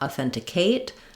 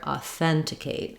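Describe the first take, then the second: First: The final syllable is stressed. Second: The final syllable is short and unstressed. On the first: The speaker calls it wrong. "just be careful not to stress here. We don't want authenticate" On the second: The speaker calls it right. "but rather authenticate"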